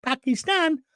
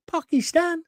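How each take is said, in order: First: "Pakistan?" with a short flat "Pa" and a falling end. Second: "Pakistan?" with a broad "Pah" in the first syllable and a rising, questioning end; drawn-out Pakistan. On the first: Host says the country name again for a listener, "Pakistan?" with a flat "Pa" and a fall. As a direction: say "Pakistan?" as "Pa-kistan", dropping at the end. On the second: Host repeats the country name to a listener, "Pakistan?" said as "Pah-kistan" with a rise. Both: Shown as a demonstration. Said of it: "Did you hear what I said?".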